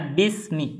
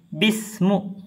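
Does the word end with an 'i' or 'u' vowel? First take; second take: i; u. First: The word ends with an 'i' vowel. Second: The word ends with a 'u' vowel. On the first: The speaker calls it right. "Jadi baca bismi" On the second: The speaker calls it wrong. "tidak boleh orang baca bismu"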